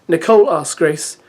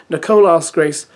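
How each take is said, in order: The two takes are said the same way.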